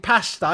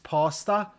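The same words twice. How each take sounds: First: The word is said in an English accent. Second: The word is said in an American accent. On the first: "Englishman says" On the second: "The American answers, uh, sir, I'm from New York"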